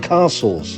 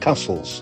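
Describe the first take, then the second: First: The first vowel is a long, broad 'ah'. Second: The first vowel is a short, flat 'a'. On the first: The speaker calls it right. "they're called castles" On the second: The speaker calls it wrong. "not castles"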